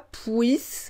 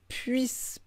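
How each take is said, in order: First: The vowel glide sounds like the word oui. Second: The vowel glide sounds sharper and higher. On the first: The speaker calls it wrong. "pas puisse" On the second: The speaker calls it right. "mais puisse"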